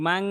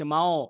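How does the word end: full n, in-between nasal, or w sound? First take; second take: full n; in-between nasal. First: The ending is a clear, direct n sound. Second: The ending is a heavy nasal between n and w. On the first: The speaker calls it wrong. "কিন্তু আমি যদি বলি মাং, তাহলে মোটা করতে পারবো না" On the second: The speaker calls it right. "সেই জন্য আমার উচ্চারণটা মাও হচ্ছে"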